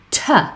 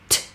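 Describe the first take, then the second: First: The consonant is followed by an uh vowel. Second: A short crisp consonant with no vowel after. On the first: The speaker calls it wrong. "instead I hear lots of parents say t" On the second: The speaker calls it right. "very short and very crisp"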